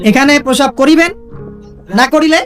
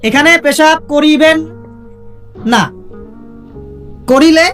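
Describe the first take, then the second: First: The pause comes before 'na'. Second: The pause comes after 'na'.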